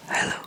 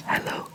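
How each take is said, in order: Both takes have the same delivery.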